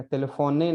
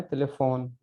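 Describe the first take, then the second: First: "टेलीफोने" with a full "ne" ending; wrongly voiced final e. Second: "टेलीफोन" ending right on the n; silent final e. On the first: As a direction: sound out the last e of "टेलीफोने". ("टेलीफोने" के अंत में पूरा "ए" बोलकर) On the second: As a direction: drop the final e of "टेलीफोन", stop on n. ("टेलीफोन" का अंत न पर, बिना "ए") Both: Shown as a demonstration. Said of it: "टेलीफोने नहीं पढ़ना है".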